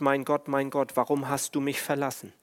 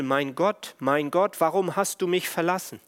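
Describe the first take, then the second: First: Said in the usual way. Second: Rising, urgent cry, higher on warum; cried out. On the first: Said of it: "Das bedeutet". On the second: Retold or imitated. Jesus crying out to his Father in despair, rising, urgent. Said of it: "Und er schreit zu seinem Vater".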